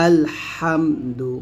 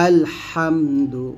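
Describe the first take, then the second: The two takes are said the same way.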